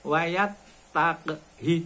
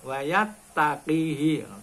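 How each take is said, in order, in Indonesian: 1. Tidak ada vokal sebelum suku kata terakhir yang pendek. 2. Vokal tambahan disisipkan sebelum suku kata terakhir. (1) "Tapi wayat takhi cendak" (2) "Itu kadang-kala diwaca"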